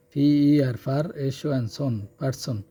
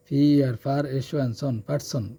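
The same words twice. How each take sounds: The two takes are said the same way.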